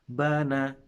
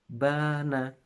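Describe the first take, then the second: First: The first vowel is short. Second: The first vowel is long. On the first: "di awal ada kata bana. Berarti itu adalah pendek dua-duanya" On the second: "Yang kedua, panjang anak-anak"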